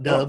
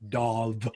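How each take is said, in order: First: The vowel sounds like the bird word dove. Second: The vowel sounds like the vowel in dog. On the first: The speaker calls it wrong. "My name is not Dove, oh. That's a bird" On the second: The speaker calls it right. "like a dog, but with a V"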